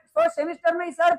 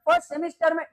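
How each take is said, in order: First: ही पर ज़ोर, first semester में ही sir; stress on ही. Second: Said in the usual way. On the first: Real, not acted. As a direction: push the word ही to tease. (First semester में ही पर ज़ोर)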